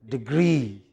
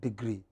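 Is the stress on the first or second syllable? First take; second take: second; first. First: The stress is on the second syllable. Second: The stress is on the first syllable. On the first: The speaker calls it right. "Stress on the second syllable" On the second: The speaker calls it wrong. "It is not degree"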